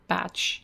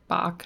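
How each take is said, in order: First: The name ends with a tch sound. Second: The name ends with a hard k-like sound. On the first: The speaker calls it wrong. "not Batch" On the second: The speaker calls it right. "pronounced like Bach"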